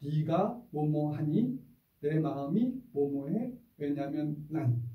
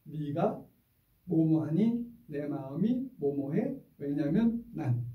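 First: Slow, measured three-part phrasing; teacher modeling a calm scolding formula; slow calm template. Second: Slow, even choral recitation; slow calm template. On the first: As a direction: lay out each part deliberately. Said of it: "세 마디면 충분합니다". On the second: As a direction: say each part deliberately. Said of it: "시작". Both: Shown as a demonstration.

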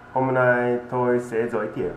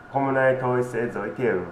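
The two takes are said the same way.

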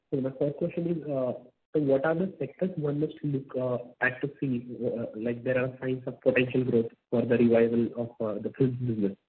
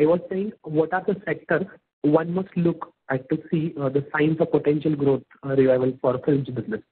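First: Quiet, indistinct question; hard to hear. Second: Louder repeat of the question; speaking up. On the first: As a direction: ask softly, too faint to hear clearly. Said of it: "we can't hear you. You're not very clear". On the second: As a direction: repeat it more audibly for the listener. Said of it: "Can you please speak louder?". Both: Real, not acted.

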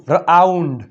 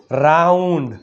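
First: રાઉન્ડ as "r-aaund", R apart from AU; split sounding-out. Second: રાઉન્ડ joined up as one syllable; blended word. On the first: Teacher showing pupils the AU sound, રાઉન્ડ split as "r-aaund". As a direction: break રાઉન્ડ after the first consonant. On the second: Teacher blending for pupils, રાઉન્ડ as one joined word. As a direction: run R straight into AU in રાઉન્ડ. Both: Shown as a demonstration. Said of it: "શું થાય?".

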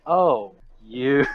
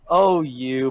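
First: Oh-you said as a put-down; dismissive. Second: Playful, friendly oh-you; the affectionate version, not dismissive; intended reading. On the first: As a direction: look down on them as you say it. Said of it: "She looks down". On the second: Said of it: "It's supposed to be like". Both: Shown as a demonstration.

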